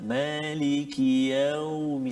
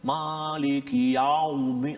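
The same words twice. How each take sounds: First: The 'yau' sound is said softly and gently. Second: The 'yau' sound is said harshly and heavily. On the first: The speaker calls it right. "sebab tu kita sebut lembut" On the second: The speaker calls it wrong. "jangan ... Bunyi garang sangat tu"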